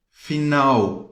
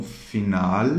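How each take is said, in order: First: "final" with the L turned into a U; Portuguese final L. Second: "final" ending on a true L, tongue up; Spanish L. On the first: Teacher showing Brazilians their usual sound, Portuguese L as U. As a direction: end "final" in an oo glide, like "finau". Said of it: "se transforma em U em português". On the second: Teacher correcting Brazilian learners, clear Spanish final L. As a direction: sound the L in "final", no U glide. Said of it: "Em espanhol é som de L". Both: Shown as a demonstration.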